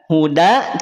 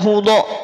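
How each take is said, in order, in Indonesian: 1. Huruf d-nya tipis, dengan vokal 'a' yang jelas. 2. Huruf d-nya tebal, dengan vokal seperti 'o'. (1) "tipis bukan tebal" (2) "bukan vokal O"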